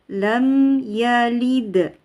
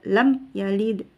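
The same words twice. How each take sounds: First: The m sound is held a moderate time. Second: The m sound is cut short and rushed. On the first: The speaker calls it right. "tapi dia sedang-sedang" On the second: The speaker calls it wrong. "tidak buru-buru pindah ya, tidak lam yalid"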